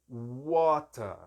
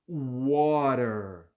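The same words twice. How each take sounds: First: The t is a clear t; no final r. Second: The t sounds like an r; final r sounded. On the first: "o britânico não vai trocar o som de T por R ... no final ele não pronuncia o R" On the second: "O americano ... esse T tem som de R"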